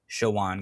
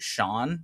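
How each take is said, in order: First: The name is said as two syllables. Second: The name is said as one syllable. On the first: The speaker calls it right. "it is pronounced Shawan ... there's an O in between the W and the N" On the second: The speaker calls it wrong. "I remember announcers when I was a kid, as he was getting older, pronounce it Sean sometimes"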